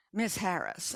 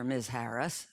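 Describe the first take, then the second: First: "Miss Harris" said crisp and formal; formal sounding. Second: "Miss Harris" eased out smooth and sweet; a touch of slick charm on "Miss Harris"; smooth as syrup. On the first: Salesman addresses the homeowner properly, lightly formal. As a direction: straighten up and make "Miss Harris" businesslike. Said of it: "gets all formal sounding". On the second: Salesman flatters the homeowner by name, lightly smooth. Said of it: "goes all smooth as syrup". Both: A narrator's reading.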